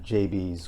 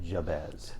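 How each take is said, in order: First: The name sounds like the letters J and B. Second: The name begins with 'jab' then 'ez'. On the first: This is how locals in town say the corner's name. "I grew up here in Plymouth and pronounced it J B's" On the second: This is how the historic house's staff say the name. "we pronounce it Jabez"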